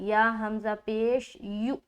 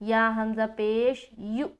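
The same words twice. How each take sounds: No difference in how they are said.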